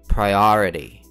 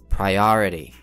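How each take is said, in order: No difference in how they are said.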